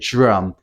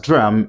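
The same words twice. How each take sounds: First: It begins with a j-like sound. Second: It begins with a plain d sound. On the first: "if you like to speak with the modern uh, P, you can just say drum" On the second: "If you pronounce it as drum, it's also correct"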